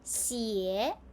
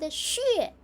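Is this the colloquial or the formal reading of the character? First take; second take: colloquial; formal. First: It uses the colloquial spoken pronunciation. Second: It uses the formal standard pronunciation. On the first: It is used in everyday spoken words. "common spoken Chinese words" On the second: It is used in formal or medical words. "standard, formal, medical reading"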